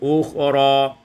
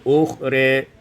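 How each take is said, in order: First: The final vowel is a plain open a. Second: The final vowel is tilted toward e.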